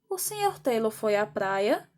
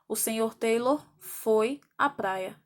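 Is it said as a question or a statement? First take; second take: question; statement. First: It is said with question intonation. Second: It is said with statement intonation. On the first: It asks a question. "mas na pronúncia nós temos uma entonação diferente" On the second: It states a fact. "Dessa frase para essa no português, só existe uma diferença na escrita"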